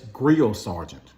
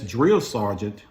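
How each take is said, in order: First: The first word begins with a 'gr' sound. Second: The first word begins with a 'dr' sound. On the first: The speaker calls it wrong. "I would pronounce words that start off D R as G R" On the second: The speaker calls it right. "instead of saying yes, drill sergeant"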